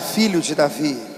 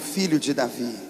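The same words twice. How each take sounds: First: It is said loudly. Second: It is said at normal loudness.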